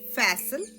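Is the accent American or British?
American. It is said with an American accent.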